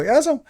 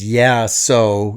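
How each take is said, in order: First: Higher quick Canadian yeah so; Canadian accent. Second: Said in the usual way. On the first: Retold or imitated. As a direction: chirp it like a Canadian. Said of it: "Every time I hear him go". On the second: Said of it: "And I realize it's".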